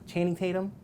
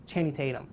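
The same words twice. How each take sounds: First: Channing Tatum? asked with a higher rising tune; incredulous question. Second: Said in the usual way. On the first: Real, not acted. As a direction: echo the name in disbelief. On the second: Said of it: "who's that guy you like?".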